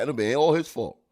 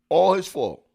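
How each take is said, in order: First: Said in the usual way. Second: Emphatic repeat. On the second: Real, not acted. Repeats the phrase with more force.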